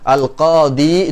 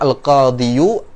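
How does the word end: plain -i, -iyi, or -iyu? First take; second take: plain -i; -iyu. First: The word ends in a plain long i. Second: The word ends with a final u after y. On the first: The speaker calls it right. "Al-qadi itu lebih ringan diucapkan" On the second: The speaker calls it wrong. "daripada kita mengatakan al-qadiyu"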